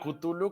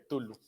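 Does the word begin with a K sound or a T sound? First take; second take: K sound; T sound. First: The word begins with a K sound. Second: The word begins with a T sound. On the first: The speaker calls it right. "mí me gusta más cómo suena Cthulhu" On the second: The speaker calls it wrong. "la K es muda"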